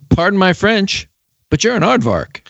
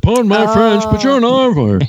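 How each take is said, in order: First: It is said in the speaker's own normal voice. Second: It is said in an imitated character voice.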